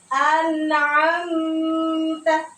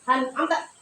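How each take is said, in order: First: The m sound is held for a long time. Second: The m sound is rushed and very short. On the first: "Contoh cara baca yang kurang tepat" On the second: "juga tidak boleh terlalu cepat"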